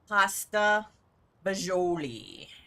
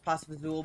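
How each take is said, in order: First: The second word has full syllables, fa-jo-lee. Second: The second word is shortened to two syllables, fazool. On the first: This is the standard way to say it. The speaker calls it right. "not how it's properly pronounced" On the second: This is how the family says it at home. The speaker calls it wrong. "the way we pronounce it is pasta fazool"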